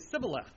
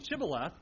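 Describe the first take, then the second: First: The word begins with a plain s sound. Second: The word begins with an sh sound. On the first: The speaker belongs to the Ephraimite group. The speaker calls it wrong. "they cannot pronounce shibboleth correctly" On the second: The speaker belongs to the group guarding the river. The speaker calls it right. "Instead of saying shibboleth"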